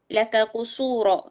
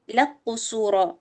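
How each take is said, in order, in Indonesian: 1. Bunyi k diucapkan terpisah sebelum q. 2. Bunyi k dilebur ke dalam q yang mengikutinya.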